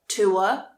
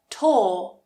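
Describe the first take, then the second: First: The vowel glides from oo to a. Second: The vowel is a long or sound. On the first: "tua can be pronounced as or"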